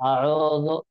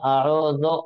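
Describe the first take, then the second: Both takes have the same delivery.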